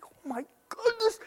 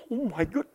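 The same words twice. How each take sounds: First: Whispered much higher, breath only; awed whispered oh my goodness; stunned whisper. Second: Said in the usual way. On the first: Retold or imitated. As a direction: gasp the words out in a hush. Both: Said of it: "and I'm like".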